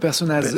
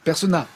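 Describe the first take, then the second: First: The name ends with a z sound. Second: The name ends without a z sound. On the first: The speaker calls it wrong. "pas Personnaz" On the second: The speaker calls it right. "on le prononce pas"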